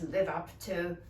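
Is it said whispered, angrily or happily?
angrily. It is said in an angry tone.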